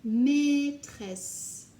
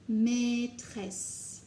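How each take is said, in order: First: Maîtresse said loud and higher, falling; loud bright model of Maîtresse; called out word. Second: Said in the usual way. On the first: Shown as a demonstration. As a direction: call Maîtresse out to the class. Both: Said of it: "teacher word drill".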